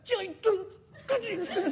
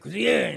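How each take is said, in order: First: It is called quietly and timidly. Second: It is called loudly and arrogantly.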